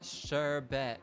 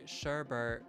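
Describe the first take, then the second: First: The second syllable has no R sound. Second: The second syllable has an extra R sound. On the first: The speaker calls it right. "but it's sherbet" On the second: The speaker calls it wrong. "Some people say sherbet"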